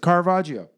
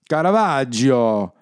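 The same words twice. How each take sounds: First: It is said plainly with an English accent. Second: It is said with an exaggerated Italian accent.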